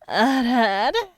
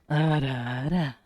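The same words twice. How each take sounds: First: It is said in a higher-pitched voice. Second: It is said in a lower-pitched voice.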